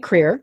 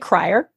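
First: The first vowel sounds like 'ee'. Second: The first vowel sounds like 'eye'. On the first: This is how the family says the name. The speaker calls it right. "we say Creer" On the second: This is how most outsiders say the name. The speaker calls it wrong. "most people say Crier"

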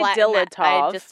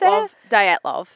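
First: The name is said flattened, with plain English sounds. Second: The name is said with a Russian-style sound. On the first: "Just flatten it right out" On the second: "You're really putting a fake Russian accent"

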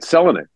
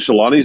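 First: The stress falls on the first syllable. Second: The stress falls on a later syllable. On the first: The speaker calls it right. "In Finnish, the first syllable is always accented" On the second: The speaker calls it wrong. "we've said Teemu Selanne's name wrong for 30 years"

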